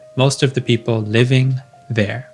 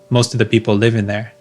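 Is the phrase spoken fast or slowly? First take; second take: slowly; fast. First: It is spoken slowly and carefully. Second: It is spoken fast and run together. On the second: "speaking to a friend who's also a native speaker"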